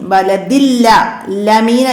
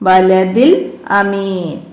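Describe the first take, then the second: First: An L sound is carried onto the second word. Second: The second word starts cleanly without an L sound. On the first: The speaker calls it wrong. "ആയി പോവരുത്" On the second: The speaker calls it right. "ബലദിൽ അമീൻ മനസ്സിലാക്കുക"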